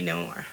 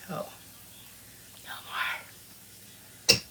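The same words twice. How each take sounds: First: Said in the usual way. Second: A drawn-out playful whisper. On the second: Pretend. Teasing the chat about no more kids, whispered. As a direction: breathe the words out without voice.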